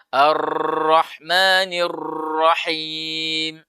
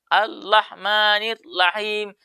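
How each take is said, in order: First: The r sounds are trilled too long. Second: The r sounds are replaced by an l. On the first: "membaca huruf ro secara berlebihan dalam getarannya" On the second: "Dia tidak menggetarkan lidahnya"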